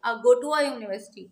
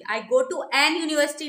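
First: I go to a university said with a, and university starting with a y sound; the right way, with a and a y sound at the start of university; correct version. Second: I go to an university said with an before university as the mistake; the incorrect version, said with an before university; wrong version. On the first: Teacher giving students the correct version, with a before university. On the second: Teacher showing students the mistake, said with an before university. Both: Shown as a demonstration. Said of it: "नहीं कहेंगे".

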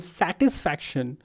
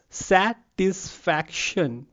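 First: Said in the usual way. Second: Very slow "satisfaction" as sa-tis-fac-tion; syllable by syllable. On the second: Shown as a demonstration. Teacher asking class to count syllables, slowly syllable by syllable. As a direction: break "satisfaction" into four spaced beats. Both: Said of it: "how many syllables it has".

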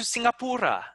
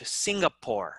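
First: "Singapura" ending in oo-ra; Indonesian pronunciation. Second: "Singapore" in three syllables; English "Singapore", no final a; English pronunciation. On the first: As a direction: say "Singapura" with four syllables. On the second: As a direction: say "Singapore" ending like pour. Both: Shown as a demonstration. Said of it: "Make sure you use the English".

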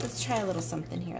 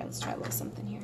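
First: Said in the usual way. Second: Whispered softly to herself. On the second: Real, not acted. Artist quietly whispers a plan to herself while drawing. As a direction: murmur it under your breath.

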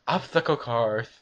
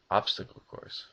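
First: Said in the usual way. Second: "Obstacle course" breathed out, each syllable clear; whispered careful obstacle course. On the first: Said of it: "I can't say it". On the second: Shown as a demonstration.

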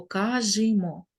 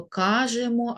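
First: "кажімо" drawn out as ка-жи-мо; Y in the ending. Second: "кажемо" with a clear е after ж; E in the ending. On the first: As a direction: say "кажімо" slowly, with и after ж. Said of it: "або". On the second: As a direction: pronounce "кажемо" carefully with е in the middle. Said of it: "ми пишемо букву «е»". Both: Shown as a demonstration.

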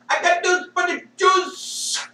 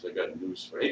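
First: Much higher, put-on shouting voice; hammed-up yell in a put-on voice; mock shout. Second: Said in the usual way. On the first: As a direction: belt it out like a mocking rally cry. Repeated line, shouted in a put-on voice.

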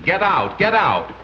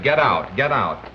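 First: Mock parrot scream. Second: Said in the usual way. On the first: A narrator's reading. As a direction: imitate a screaming parrot on air. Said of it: "the parrot was still screaming". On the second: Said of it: "greeted by cries of".

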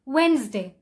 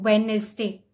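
First: Wednesday as wenz-day; Wednesday in two syllables; correct Wednesday. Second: Wednesday as wed-nes-day; mispronounced Wednesday; spelled-out Wednesday. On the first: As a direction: drop the d in Wednesday. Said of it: "the actual pronunciation is". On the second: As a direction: sound every letter of Wednesday. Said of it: "exactly the way it is written". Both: Shown as a demonstration.

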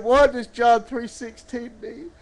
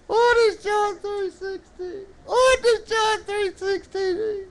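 First: Said in the usual way. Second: High puppet mock-crying as the boy; tearful puppet. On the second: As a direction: wail the question in a high puppet voice.

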